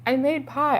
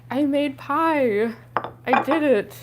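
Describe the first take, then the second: First: Said in the usual way. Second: Slow, stretched proud announcement; proud drawn out. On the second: Real, not acted. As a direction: draw it out, delighted with yourself.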